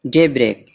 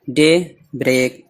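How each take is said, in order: First: Said in the usual way. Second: daybreak slowly, with a gap before break; word in parts. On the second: Shown as a demonstration. Teacher breaking down a new word, daybreak in slow parts. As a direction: split daybreak into day and break.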